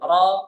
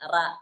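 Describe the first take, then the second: First: The r syllable sounds thick and heavy. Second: The r syllable sounds thin and light. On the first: The speaker calls it right. "ശബ്ദം കനപ്പിക്കണം" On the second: The speaker calls it wrong. "മലയാളത്തിലാണ് റാ പറയുന്നത്. ... അങ്ങനല്ല"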